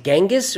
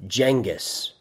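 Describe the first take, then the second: First: Genghis with a hard G, like "gang"; hard G pronunciation. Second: Genghis with a soft G, like "jang"; soft G pronunciation. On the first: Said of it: "So is it Genghis or is it". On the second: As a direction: say Genghis starting with a "j" sound as in jam. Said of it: "is it Genghis or is it". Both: Shown as a demonstration.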